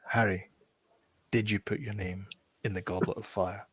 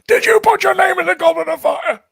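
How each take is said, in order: First: It is said calmly, at normal volume. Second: It is screamed loudly, like Dumbledore shouting.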